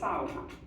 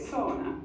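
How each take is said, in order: First: It is said with a Finnish pronunciation. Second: It is said with a non-Finnish, English-style pronunciation. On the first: This is how Finns say it. The speaker calls it right. "As Finns, we call it sauna" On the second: This is how outsiders say it. The speaker calls it wrong. "we don't call it sauna"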